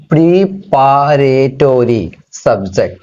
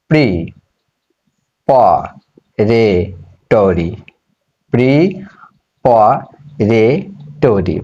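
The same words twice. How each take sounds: First: Slow, drawn-out term. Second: preparatory said very slowly, split into syllables, lower. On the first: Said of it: "এরপরটা কি?". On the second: Teacher spelling out preparatory slowly by syllables. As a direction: break preparatory into slow syllables for the students. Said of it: "দেখো এটা কিভাবে syllable করতে হয়।". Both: Shown as a demonstration.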